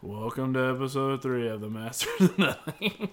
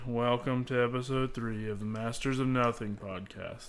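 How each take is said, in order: First: It is yelled loudly and energetically. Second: It is said in a flat, boring way.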